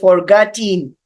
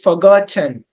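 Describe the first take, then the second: First: The last syllable has a full vowel. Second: The last syllable has a reduced vowel. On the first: The speaker calls it wrong. "We don't say it like this because it sounds weird" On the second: The speaker calls it right. "we have to use the schwa sound, and that is actually the correct sound"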